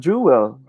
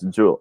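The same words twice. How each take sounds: First: The word is said with two syllables. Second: The word is said with one syllable. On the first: The speaker calls it wrong. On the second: The speaker calls it right.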